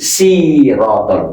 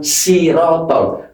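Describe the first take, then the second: First: The first s is heavy and rounded. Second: The first s is light and thin. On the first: The speaker calls it right. "ini Sirotol. Kalau ini seakan-akan ada huruf W-nya" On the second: The speaker calls it wrong. "bukan Sirotol. Kalau Sirotol berarti berubah huruf sin"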